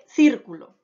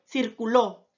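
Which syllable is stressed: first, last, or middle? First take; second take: first; last. First: The stress is on the first syllable. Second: The stress is on the last syllable. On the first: A geometric shape. "tiene la mayor fuerza de voz en la antepenúltima sílaba" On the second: A past-tense verb meaning it circulated. "Ahora ya tiene la mayor fuerza de voz en la última sílaba"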